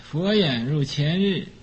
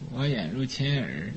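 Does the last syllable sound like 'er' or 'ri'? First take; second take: ri; er. First: The last syllable is said as standard 'ri'. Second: The last syllable is said as 'er'.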